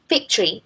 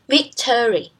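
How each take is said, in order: First: The unstressed middle vowel is dropped. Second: The unstressed middle vowel is fully pronounced. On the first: "we normally pronounce it as victory when we speak fast" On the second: "instead of"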